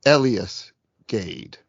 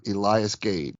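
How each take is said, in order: First: Elias as ELL-ee-us, drawn out slowly; first-syllable stress. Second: Elias as ee-LYE-us; long-i pronunciation. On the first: Retold or imitated. Host quoting the podcast guest's correct version, first-syllable stress. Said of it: "he mentions". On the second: Shown as a demonstration. Host admitting how he always said the name, long-i pronunciation. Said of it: "I always said".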